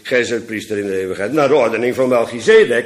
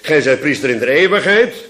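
First: The stress is on "Melchizedek". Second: The stress is on "eeuwigheid".

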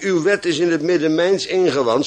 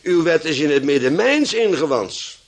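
First: The stress falls naturally on the final word. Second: The stress falls on the word mijns. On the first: The law is simply kept inwardly. "de uitdrukking" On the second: The law is in me rather than in the ark. "zou je moeten lezen als"

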